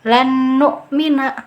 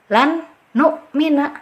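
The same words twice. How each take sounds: First: The n merges but without a held nasal. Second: The first n is pronounced clearly and separately. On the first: "sudah betul dimasukkan tapi dengungannya tidak ada" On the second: "itu pembacaan ijhar jelas"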